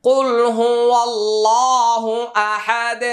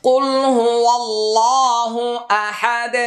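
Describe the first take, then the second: No difference in how they are said.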